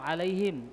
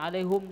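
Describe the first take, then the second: First: The last syllable has an 'i' vowel. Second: The last syllable has a 'u' vowel. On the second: "bisanya alaihum saja"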